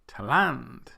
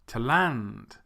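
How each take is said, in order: First: The stress is on the second syllable. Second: The same.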